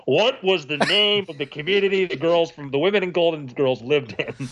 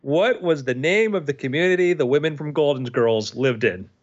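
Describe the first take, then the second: First: Put-on villain host, higher with swooping tune; exaggerated, intoned quiz question; quizmaster character voice. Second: Said in the usual way. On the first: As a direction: read the question in the host's theatrical voice. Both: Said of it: "In his voice".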